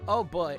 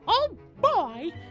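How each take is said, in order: First: It is said in the speaker's natural voice. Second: It is said in a put-on Mickey voice.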